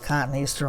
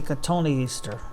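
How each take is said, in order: First: It begins with 'cotton', then 'easter'. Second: It begins with 'ka-toh', then 'nee-easter'. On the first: This is the speaker's own habitual pronunciation. "it's my version of the pronunciation" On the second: This is the pronunciation others expect. "you're supposed to say Katoni Easter"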